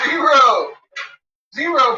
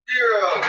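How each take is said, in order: First: Louder, higher zero; emphatic zero. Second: Said in the usual way. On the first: Shown as a demonstration. Teasing the dog, loud emphatic zero. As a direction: punch the word Zero up high.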